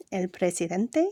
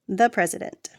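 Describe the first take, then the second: First: El presidente with Spanish vowels and stress on DEN; Spanish pronunciation. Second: Said in the usual way. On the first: Shown as a demonstration. Teacher contrasting English and Spanish: presidente stressed on DEN. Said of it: "they magically become Spanish words". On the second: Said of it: "end in E N T or A N T".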